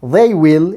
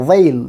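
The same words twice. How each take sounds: First: Said in the usual way. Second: THEY'LL as one syllable, 'they' gliding into L; contracted form. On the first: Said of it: "in contracted form". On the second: Shown as a demonstration. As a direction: say 'they'll' in one beat, falling. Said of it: "it should be pronounced". ('they'll' সংক্ষিপ্ত রূপে, এক ধ্বনিগুচ্ছে)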